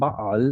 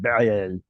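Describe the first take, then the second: First: The vowels are an open 'ah' sound. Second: The vowels are an 'eh' sound. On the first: This is the form actually used. "Ain prefers ah sound, so we get Baal" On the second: This is the form the pattern predicts. "It should have been Baal"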